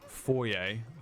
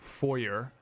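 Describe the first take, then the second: First: The word has a non-American pronunciation. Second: The word has an American pronunciation.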